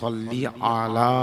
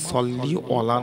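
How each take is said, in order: First: The last word begins with an 'a' sound. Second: The last word begins with an 'o' sound. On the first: The blessing is upon the Prophet. The speaker calls it right. "সল্লি আলা, আলা।" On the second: The meaning of the blessing changes. The speaker calls it wrong. "সল্লি অলা নয়"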